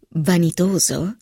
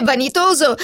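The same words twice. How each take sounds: First: Incredulous echo. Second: Vanitoso said as a firm final verdict, falling; falling statement. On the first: Philip puzzled by Helen's word, slow rising echo. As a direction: echo Vanitoso as a puzzled question. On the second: Helen listing the kitten's faults, firm falling end. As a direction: close the list with vanitoso, dropping down. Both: Acted.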